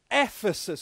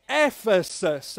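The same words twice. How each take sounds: First: Said in the usual way. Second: "Ephesus" said slowly in three clear syllables, EPH-e-sus. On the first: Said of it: "Can you say that with me". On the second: Shown as a demonstration. Pastor teaching kids the place name, slow syllables. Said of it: "Can you say that with me? It's three syllables".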